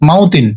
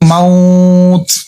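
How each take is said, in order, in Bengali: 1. শব্দটি পূর্ণ 'tin' দিয়ে শেষ হয়। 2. শব্দটি হঠাৎ শুধু একটি 't' দিয়ে শেষ হয়। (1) "এমনি পড়লে কিন্তু মাউ তিন হয়" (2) "অথচ যদি ওয়াকফ করে পড়ি"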